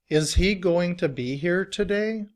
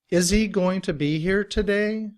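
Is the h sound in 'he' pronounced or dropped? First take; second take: pronounced; dropped. First: The h in 'he' is clearly pronounced. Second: The h is dropped, linking 'is' and 'he'.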